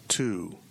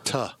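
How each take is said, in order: First: The word has a full 'oo' vowel. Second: The word has a weak 'uh' vowel. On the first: "I don't say to" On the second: "We all do it"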